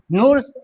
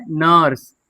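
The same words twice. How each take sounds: First: नूर्स said with a long "ऊ" sound, the mistake; wrong pronunciation. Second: नर्स said with a short "अ" sound, like "नर्स"; correct pronunciation. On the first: (गलत उच्चारण: नूर्स, लंबा "ऊ") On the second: (सही उच्चारण: नर्स) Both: Shown as a demonstration. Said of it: "ऐसे नहीं पढ़ेंगे".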